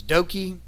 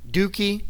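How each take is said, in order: First: Doki said as DOH-kee, long O; Doki, the right way, DOH-kee; correct name. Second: Dookie said as DOO-kee with a long oo; joking mispronunciation. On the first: Quoting a wrestler's name to his rival, said properly. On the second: Wrestler mangling his rival's name, DOO-kee. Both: Retold or imitated. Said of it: "which I once said accidentally".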